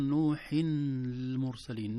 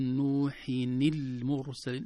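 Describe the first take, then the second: First: نوح المرسلين said as nuhun il-mursalin, without the kasra; wrong reading. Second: نوح المرسلين read as nuhin il-mursalin, the nun with kasra; correct reading. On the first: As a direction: show the mistake, slowly. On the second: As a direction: slowly show the kasra on the nun. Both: Shown as a demonstration. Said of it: "لا، صعب نقول".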